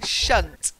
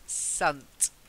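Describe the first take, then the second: First: The syllable starts with an sh sound. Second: The syllable starts with an s sound. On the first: The speaker calls it wrong. "you're saying shunt" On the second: The speaker calls it right. "it's sunt"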